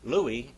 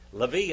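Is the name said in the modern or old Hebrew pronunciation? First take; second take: old; modern. First: The name is said the old Hebrew way. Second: The name is said the modern Hebrew way. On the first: "Louis in old Hebrew" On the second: "Levi in modern Hebrew"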